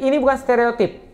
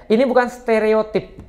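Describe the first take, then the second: First: Said in the usual way. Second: "Ini bukan stereotip" said slowly, each word weighted; slow emphatic repeat. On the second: Shown as a demonstration. Preacher repeats to students, slow and emphatic. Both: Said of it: "Sekali lagi".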